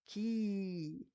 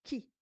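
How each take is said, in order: First: "ki" with the i held long; sustained, drawn-out "ki"; long vowel. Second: "ki" with a short i; short "ki" without lengthening; short vowel. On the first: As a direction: stretch out the i in "ki". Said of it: "Avec les longues voyelles". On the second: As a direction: say "ki" as one brief syllable. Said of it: "avec la kasra". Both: Shown as a demonstration.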